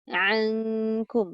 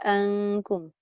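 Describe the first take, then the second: First: The word starts with a deep throat ain sound. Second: The word starts with a plain glottal stop. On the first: The speaker calls it right. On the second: The speaker calls it wrong.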